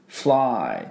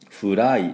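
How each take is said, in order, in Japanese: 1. fとlはつながっています。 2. fとlはつながっていません。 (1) "FL でフルッフルッフルッフルッフルッで、I はそのあのY はI と発音しますからFly Fly っていうふうに発音します" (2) "Fly じゃありません"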